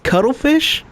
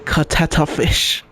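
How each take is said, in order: First: The first part is pronounced cuttle. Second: The first part is pronounced katata. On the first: The speaker calls it right. "I could tell him it's pronounced cuttlefish" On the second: The speaker calls it wrong. "or I could go the other way and say katata fish"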